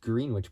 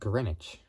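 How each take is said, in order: First: The word is said just as it is spelled. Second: The word is said differently from its spelling. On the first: The speaker calls it wrong. "it looks like it's spelled Greenwich" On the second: The speaker calls it right. "but it's pronounced Greenwich"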